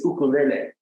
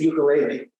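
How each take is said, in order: First: It is said the local Hawaiian way. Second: It is said the familiar English way. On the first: The speaker calls it right. "it is ukulele" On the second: The speaker calls it wrong. "it isn't ukulele"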